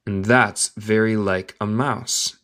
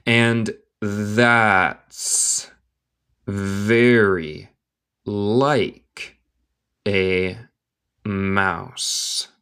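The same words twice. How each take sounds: First: Slow whole sentence, no long gaps; slow connected reading. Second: Very slow, each word standing alone; word-by-word dictation. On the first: Teacher repeating the line for learners, slow and connected. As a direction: link the words at a learner's pace. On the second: Teacher reading Alice to learners, word by word. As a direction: pause after every word for learners. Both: Shown as a demonstration.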